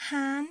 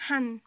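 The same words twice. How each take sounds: First: HAN with its vowel held; long vowel. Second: HAN with a short vowel; shortened syllable. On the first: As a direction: draw out "han" for contrast. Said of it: "Vous voyez la différence?". (« han » avec voyelle longue) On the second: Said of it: "ça sert à raccourcir le son". (« han » raccourci) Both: Shown as a demonstration.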